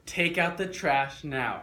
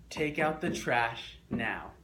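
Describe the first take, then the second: First: Loud, slow command, each word hit hard. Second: Said in the usual way. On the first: Shown as a demonstration. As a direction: order them to take out the trash. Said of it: "Say it like you mean it". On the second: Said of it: "On three, you're gonna say this phrase".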